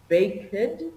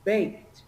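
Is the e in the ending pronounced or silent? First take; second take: pronounced; silent. First: The ending is said as an extra syllable. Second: The ending adds no extra syllable. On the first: The speaker calls it wrong. "instead of saying, for example" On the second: The speaker calls it right. "we don't emphasize that e, so we say"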